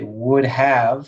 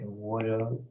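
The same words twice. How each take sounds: First: Both words are said fully and separately. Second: The words are squeezed together into one contraction. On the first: "We say would have" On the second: "like that, okay, with a contracted form"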